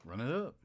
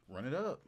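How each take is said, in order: Both takes have the same delivery.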